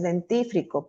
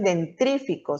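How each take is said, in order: First: "dentífrico" with the r after -tif-, the correct form; correct word. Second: "dentrífico" with the r after dent-, the common error; wrong word. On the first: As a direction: say "dentífrico" correctly, a little softer. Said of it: "sino es dentífrico". ("dentífrico" correcto, más suave) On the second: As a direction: say the mistaken "dentrífico". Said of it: "No es dentrífico". ("dentrífico" pronunciado como error común) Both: Shown as a demonstration.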